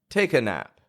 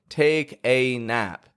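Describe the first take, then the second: First: The vowel in 'a' is a weak schwa. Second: The vowel in 'a' is full and strong. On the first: The speaker calls it right. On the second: The speaker calls it wrong.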